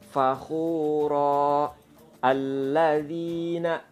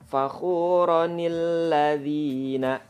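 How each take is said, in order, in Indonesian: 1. Kedua kata dibaca terpisah, berhenti pada 'fakhura'. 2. Kedua kata disambung dengan sambungan 'nil'. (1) "Kalau tidak diwasolkan, bacanya biasa" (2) "Tapi kalau dia diwasolkan"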